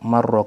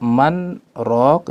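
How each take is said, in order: First: The two words run together without a break. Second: A brief stop separates the two words. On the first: It sounds like a single word. The speaker calls it wrong. "kalau dibaca bersambung" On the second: It is heard as two separate words. The speaker calls it right. "kenapa di situ sakta man rok"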